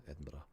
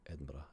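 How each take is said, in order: First: It is said quickly, with syllables run together. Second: It is said quickly, with syllables run together.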